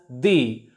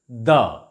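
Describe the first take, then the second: First: The word ends in a long 'ee' vowel. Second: The word ends in a short 'uh' vowel. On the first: The next word begins with a vowel sound. "if the following word starts or begins with a vowel sound, it is pronounced as the" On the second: The next word begins with a consonant sound. "If the following word begins with a consonant sound, we shall pronounce it the"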